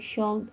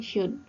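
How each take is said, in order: First: The letter L is pronounced in the word. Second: The letter L is silent in the word. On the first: The speaker calls it wrong. "bukan should" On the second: The speaker calls it right. "O dan L ini silent letter"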